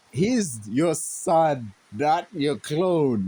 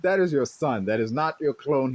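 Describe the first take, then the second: First: Slow, each word weighed out; slow emphasis. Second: Said in the usual way. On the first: Real, not acted. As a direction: lean on son and clone, very slowly. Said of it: "pointed appeal to Batman". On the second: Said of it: "same appeal restated".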